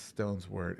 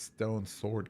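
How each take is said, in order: First: The s sound ends the first word. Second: The s sound begins the second word. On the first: The speaker calls it wrong. "I say it wrong. It it's not stone's word" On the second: The speaker calls it right. "It's stone sword key"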